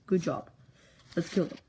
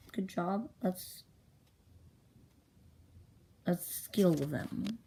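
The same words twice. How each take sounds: First: Said in the usual way. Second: Slow, hesitant, questioning delivery; halting reading. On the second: Acted. Storyteller struggles to read own handwriting, slow halting reading. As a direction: feel your way through the words, drawing them out.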